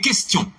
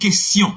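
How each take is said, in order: First: The 'ti' is said with a t sound. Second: The 'ti' is said with an s sound. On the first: The speaker calls it right. "C'est question" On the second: The speaker calls it wrong. "il n'y a pas dit question en français"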